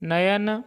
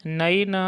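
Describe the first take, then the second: First: नयन with a clear y, 'na-yan'; तत्सम उच्चारण. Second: नयन as 'na-i-na', with a gliding ऐ; ऐ का उच्चारण. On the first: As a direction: keep the य distinct in नयन. (नयन को 'न-यन' बोलें) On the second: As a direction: say नयन as नैन, opening the 'a-i' glide. (नयन को 'नइन' जैसा बोलें) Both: Shown as a demonstration. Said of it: "ऐ को ऐ उच्चारण करेंगे".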